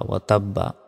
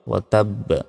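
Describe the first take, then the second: First: The last word ends with a full vowel. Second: The last word ends on a bouncing consonant. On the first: The reading continues without stopping. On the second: The reader stops at this word.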